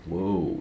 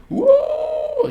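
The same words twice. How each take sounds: First: Said in the usual way. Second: Very high, loud party whoop; imitated screaming whoop. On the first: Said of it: "everybody's just like". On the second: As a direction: scream it out like a rowdy party kid. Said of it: "He's just screaming".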